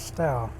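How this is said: The name is said the Essex way. "If you've got an Essex accent"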